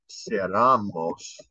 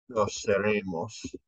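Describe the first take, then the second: First: Seramos spoken slowly, an a where the e belongs; slip of the tongue. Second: Seremos with a clear e, se-RE-mos, quickly fixed; self-correction. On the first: Teacher misreading the chart, slowly saying seramos. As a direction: let the wrong form seramos slide out unnoticed. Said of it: "No seremos, sorry". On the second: Teacher correcting a slip for the class, seremos. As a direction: correct yourself to seremos in passing. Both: Shown as a demonstration.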